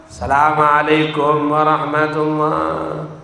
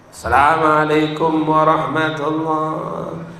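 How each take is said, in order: Both takes have the same delivery.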